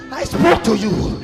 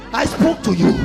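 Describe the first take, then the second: No difference in how they are said.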